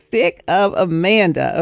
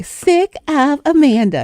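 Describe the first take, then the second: First: Said in the usual way. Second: Put-on high, slow baby girl voice; little baby girl voice. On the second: Niece finishing grandmother's joke, high slow baby girl voice. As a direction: say it like a tiny girl copying grandma. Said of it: "in her little baby girl voice".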